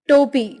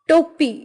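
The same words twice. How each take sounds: No difference in how they are said.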